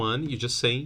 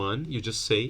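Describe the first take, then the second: Both takes have the same delivery.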